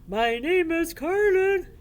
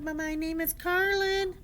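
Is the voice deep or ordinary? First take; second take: deep; ordinary. First: It is said in a very deep, loud voice. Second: It is said in an ordinary speaking voice.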